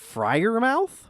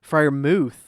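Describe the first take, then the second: First: The last syllable sounds like 'mouth'. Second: The last syllable sounds like 'muth'. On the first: The speaker calls it wrong. "What is the pronunciation of that name?" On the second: The speaker calls it right. "Fryermuth is the uh, the pronunciation"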